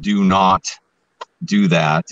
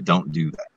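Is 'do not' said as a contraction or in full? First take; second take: full; contraction. First: Do not is said as two full words. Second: Do not is contracted to one word, don't. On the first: The speaker calls it wrong. "written out as two words and it doesn't sound natural" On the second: The speaker calls it right. "I'll just create the contraction on the fly"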